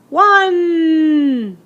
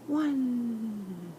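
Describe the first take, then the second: First: The word is said loudly. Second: The word is said quietly. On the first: "I'm going to say it loud" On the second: "I'm going to say it quiet"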